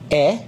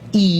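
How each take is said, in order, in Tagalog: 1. Ang letra ay binibigkas nang may maikling tunog ng patinig. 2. Ang letra ay binibigkas nang may mahabang tunog ng patinig. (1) "Sa English short vowels, ganito ang bigkas" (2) "Ang long vowels sa English, ganito ang bigkas"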